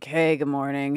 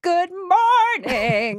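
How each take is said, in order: First: It is said casually, with ordinary energy. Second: It is said with big theatrical energy.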